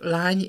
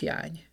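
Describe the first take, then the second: First: The word begins with an L sound. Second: The word begins with a Y sound. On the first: This is the standard form. "itt a köznyelvben azt mondjuk" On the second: This is the eastern dialect form. "ha elmegyünk keletre, akkor ott azt halljuk"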